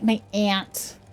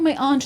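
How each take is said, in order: First: Aunt is said like the insect 'ant'. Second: Aunt is said the posh British way, like 'ahnt'.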